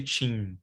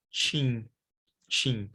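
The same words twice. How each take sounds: First: "chin" with a clear closing n; full final n. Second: "chin" with a nasal vowel and no final n; Portuguese nasal. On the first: Teacher showing the form Brazilians don't use: "chin" with n. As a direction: finish "chin" on a real n. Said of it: "We don't say". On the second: Teacher showing how Brazilians say TIM: nasal "chin". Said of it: "we pronounce it". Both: Shown as a demonstration.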